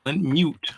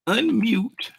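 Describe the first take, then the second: First: Said in the usual way. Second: Unmute said much higher, squeaked; high squeaky voice. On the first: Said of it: "repeated with high voice". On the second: Shown as a demonstration. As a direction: pitch Unmute way up. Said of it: "repeated in a high voice".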